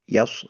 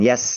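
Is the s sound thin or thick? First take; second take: thick; thin. First: The sound moves from thin to thick. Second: The s sound stays light and thin. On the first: The speaker calls it right. "tipis ke tebal yaus" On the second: The speaker calls it wrong. "bukan yas ya"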